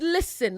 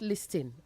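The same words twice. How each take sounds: First: The T sound is left silent. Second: The T sound is clearly pronounced. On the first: The speaker calls it right. "The T is silent" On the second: The speaker calls it wrong. "not listen"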